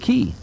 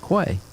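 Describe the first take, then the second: First: The word is pronounced like 'key'. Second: The word is pronounced like 'kway'. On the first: This is how it is said elsewhere. "instead of Key" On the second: This is how the locals in one town say it. "we call it Quay"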